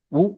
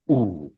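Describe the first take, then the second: First: उ said short; a brief, quick उ; short vowel. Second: उ held long; sustained, lengthened उ; long vowel. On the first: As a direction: keep उ to one beat. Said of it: "एक मात्रा में बोला जाएगा". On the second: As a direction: draw उ out into a long oo. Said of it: "ज्यादा समय के लिए बोला जाएगा". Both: Shown as a demonstration.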